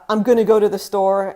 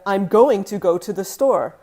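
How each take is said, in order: First: Going to is squeezed into a short gonna. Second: Going to is said fully as separate words. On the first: This is casual, natural speech. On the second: This is the careful, formal form.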